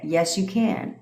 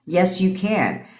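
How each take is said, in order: First: Said in the usual way. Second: "you" stressed in a slower, firmer "Yes, you can."; slow, firm yes with weight on "you"; slow emphatic. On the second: Shown as a demonstration. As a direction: lean on "you" and slow the line down.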